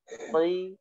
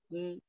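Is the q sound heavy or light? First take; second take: heavy; light. First: The q sound is heavy and deep. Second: The q sound is light and thin. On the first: The speaker calls it right. "Kok itu kalau kasroh tetap dibaca tebal" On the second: The speaker calls it wrong. "Tidak boleh"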